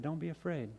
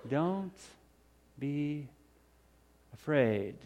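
First: Soft, gentle comfort; calm his fear softly; tender reassurance. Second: Don't, be, afraid, each word alone with pauses, soft; slow, spaced reassurance. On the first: Jesus gently reassuring frightened Peter, soft and tender. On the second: Jesus slowly spacing Don't be afraid to calm Peter, soft. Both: Acted.

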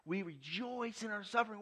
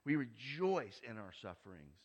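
First: Pitched up high, fervent restatement; preacher repeating with rising fervor; rising preacher's fervor. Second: Said in the usual way. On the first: Acted. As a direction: lift it high and sing it out. Repeat much higher.

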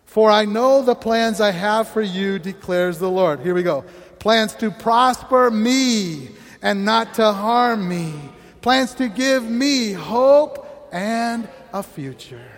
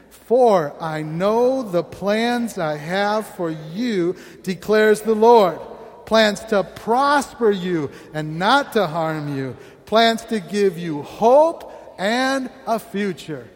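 First: Slow, louder recitation with "me"; personal declaration. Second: Slow, measured recitation of "For I know the plans"; congregational reading. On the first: Pastor leading the personalised reading, slow and louder. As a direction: claim the verse for yourself, slowly. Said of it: "replace you with I". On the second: Pastor leading the church in reading scripture, slow. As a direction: read the verse slowly in unison. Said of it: "read this out loud together". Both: Real, not acted.

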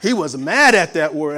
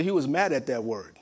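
First: Much louder, punching mad; emphatic repeat. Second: Said in the usual way. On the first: Shown as a demonstration. Preacher stressing brother's anger to congregation, loudly. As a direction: hit the repeat hard and loud. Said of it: "he was hostile with that".

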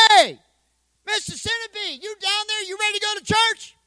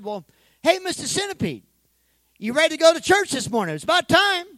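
First: Impatient call. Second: A cheerful call, pitched up, louder at the end; calling the centipede. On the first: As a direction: shout down into the box, losing patience. Pastor calls a third time. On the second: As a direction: call down into the box, eager. Pastor calling to pet centipede. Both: Acted.

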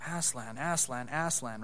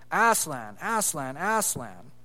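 First: Aslan, Aslan, Aslan echoed back softer, each one falling; soft repeat. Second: Said in the usual way. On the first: Acted. Jill repeating the call after Eustace, softly. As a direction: echo the name quietly like a follower. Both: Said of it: "repeated Jill".

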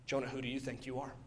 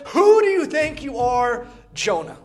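First: Much softer, lower and fast; quiet question. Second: Higher, louder, slow pointed challenge; challenging God. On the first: God asks Jonah, suddenly hushed and quick. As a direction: let it drop to a near hush. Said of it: "God answers the unasked question". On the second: God challenging Jonah with a raised, slow question. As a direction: demand an answer, slowly. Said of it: "He gives Jonah this last chance". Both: Retold or imitated.

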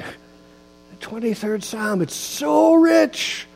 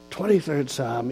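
First: "The twenty-third Psalm" said slowly, smiling, rising high on "it's so rich". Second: Said in the usual way. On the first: Shown as a demonstration. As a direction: savour the words with a smile. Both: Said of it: "you can't say it without smiling".

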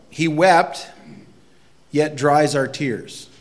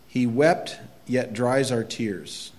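First: Louder and higher, slow on the second half; proclaimed refrain. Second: Said in the usual way. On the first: Shown as a demonstration. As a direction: ring it out as a proclamation, slow on "dries our tears".

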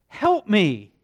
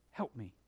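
First: Loud, high cry of help me; a father crying help me to the Lord; loud plea. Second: Help me dropped to a soft low murmur; a father's soft, exhausted help me; hushed plea. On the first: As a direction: plead help me out loud, desperate. Father's plea, then repeated hushed. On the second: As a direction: breathe help me quietly, spent. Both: Acted.

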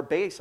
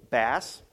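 First: "bass" with a long a, rhyming with face; "bass" like base. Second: "Bass" with a short a; "Bass" rhyming with pass. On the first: Teacher names the guitar reading, "bass" as base. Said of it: "I could be talking about Debbie's guitar". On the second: Teacher names the fish reading, "Bass" as bass rhyming with mass. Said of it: "talk about a fish". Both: Shown as a demonstration.

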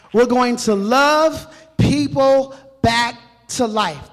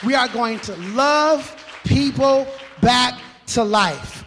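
First: Much louder, slow "love" held out; bigger emphatic repeat. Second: Slow, loud drawn-out "love"; emphatic vision. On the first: Pastor repeating the vision louder to the congregation. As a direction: land "love" even harder the second time. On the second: Pastor declaring the church vision, slow and loud. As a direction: stretch out "love people back to life" with force. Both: Shown as a demonstration. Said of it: "That's our vision".

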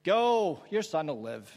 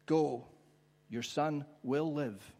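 First: Dismissive send-off. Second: Slow, measured promise, pause after Go; calmly assure, giving each word room; gentle assurance. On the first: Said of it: "play with those words". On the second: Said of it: "make them say all sorts of different things". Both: Shown as a demonstration.

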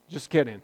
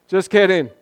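First: Said in the usual way. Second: Playful louder take of "kidding"; teasing second just kidding; louder, higher just kidding. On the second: Shown as a demonstration. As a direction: bounce up on "kidding" to break the tension.

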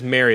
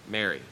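First: Louder, calling her across the garden. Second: Tender. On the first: Jesus calling Mary by name in the garden, called out loud. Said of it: "the sound of Jesus calling out her name". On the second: Jesus speaks Mary's name softly. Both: Acted.

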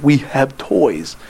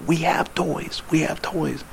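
First: Spelled out very slowly; slow exaggerated mouthing. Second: Barely voiced, mouthed words; mouthing silently. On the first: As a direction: stretch each word for someone far away. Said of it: "I said". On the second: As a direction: mouth it without sound across the room.

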